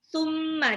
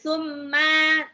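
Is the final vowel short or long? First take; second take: short; long. First: The final vowel is short. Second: The final vowel is drawn out long. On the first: The speaker calls it right. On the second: The speaker calls it wrong.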